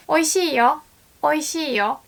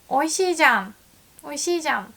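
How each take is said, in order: First: Oishiiyo with a bright, telling よ; informing tone. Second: Oishiijan with a firm, slightly contradicting じゃん; surprised emphasis. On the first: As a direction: hand over Oishiiyo as news. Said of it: "And then you wanna say". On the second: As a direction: punch Oishiijan as if proving a point. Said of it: "Oh, I'm surprised". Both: Shown as a demonstration.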